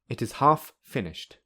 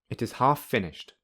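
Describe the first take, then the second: First: Both f sounds are said separately. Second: The two f sounds merge into one. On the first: "Firstly without linking" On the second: "secondly with linking"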